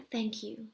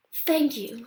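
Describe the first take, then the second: First: Barely voiced, mouthed thanks; mother gorilla silently mouths thanks to Bob. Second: Said in the usual way. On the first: A narrator's reading. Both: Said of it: "Jody mouths to me".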